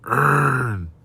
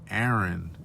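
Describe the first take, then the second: First: The name is said with one syllable. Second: The name is said with two syllables. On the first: The speaker calls it wrong. "the cat was like Ern" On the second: The speaker calls it right. "it's pronounced Aaron"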